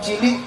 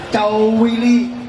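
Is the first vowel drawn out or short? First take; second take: short; drawn out. First: The word is said with normal short vowels. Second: The word is said with a long stretched vowel. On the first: It means small. "lek arepe ngomong cilik" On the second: It means very small. "pengen ngomong cilik banget jadinya"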